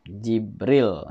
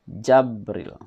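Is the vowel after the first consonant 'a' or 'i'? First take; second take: i; a. First: The first vowel is an 'i' sound. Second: The first vowel is an 'a' sound. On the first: "Dengan kisrah jim" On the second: "Dan fatahnya jim"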